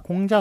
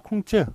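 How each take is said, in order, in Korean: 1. 이 이름은 한국식으로 읽어요. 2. 이 이름은 중국식으로 읽어요. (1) "앞에 공자를 맞겠습니다" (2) "중국 발음은 콩즈인데"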